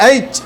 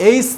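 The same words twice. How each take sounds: First: এইচ ending in a firm "ch"; corrected pronunciation. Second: এইচ ending in a soft s, "eis"; the mistaken এইচ, closing on s; wrong pronunciation. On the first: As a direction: close এইচ on ch, as "aych". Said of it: "উচ্চারণ করতে হবে". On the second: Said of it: "এইচ না". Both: Shown as a demonstration.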